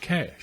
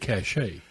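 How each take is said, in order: First: It is said with one syllable, like cash. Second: It is said with two syllables, like cash-ay. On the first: The speaker calls it right. "It's just cash" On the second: The speaker calls it wrong. "that's what everybody wants to say"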